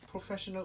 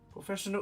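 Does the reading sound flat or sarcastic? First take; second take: flat; sarcastic. First: It is read in a flat tone. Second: It is read in a sarcastic tone. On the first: The speaker calls it right. "I hope that sounded more flat" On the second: The speaker calls it wrong. "my reading of your name sounded sarcastic"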